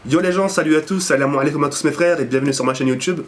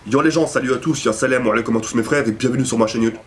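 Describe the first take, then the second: First: It is said in a gentle, nice tone. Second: It is said in a tough street-thug tone.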